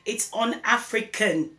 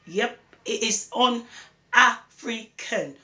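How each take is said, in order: First: Said in the usual way. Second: "un-African" said slowly and firmly, each syllable weighed; slow emphatic repeat. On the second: Real, not acted. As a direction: drive the word un-African home, slowly.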